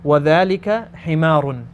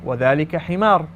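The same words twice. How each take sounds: First: The last word ends with an n sound. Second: The last word ends without an n sound. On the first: "I want you to read them even when you stop" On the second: "Make it a sukoon"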